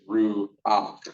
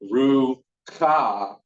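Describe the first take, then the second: First: A vowel comes before the final harsh consonant. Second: The last consonant is followed by a vowel. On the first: The speaker calls it right. "it's ru-ah" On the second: The speaker calls it wrong. "Not ru-ka"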